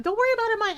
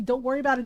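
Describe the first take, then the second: First: Mocking Varric's dismissal. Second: Said in the usual way. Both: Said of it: "Yeah, see".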